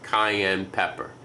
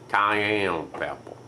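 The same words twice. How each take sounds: First: It is said in the speaker's usual accent. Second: It is said in a New Orleans accent.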